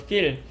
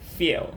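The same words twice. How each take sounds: First: The vowel is a plain, relaxed Korean-style ee. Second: The vowel is tense and pulled far back. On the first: The speaker calls it wrong. "그냥 국어 이 느낌으로" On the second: The speaker calls it right. "소리만 좀만 넣어줘도"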